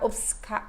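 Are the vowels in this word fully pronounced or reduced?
reduced. The unstressed vowels are reduced and swallowed. This is how it sounds in Portugal. "ele obcecado, obcecado, obcecado"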